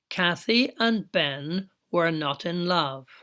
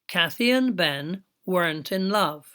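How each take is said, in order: First: Every word is said fully and separately. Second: The verb and not are joined into a contraction.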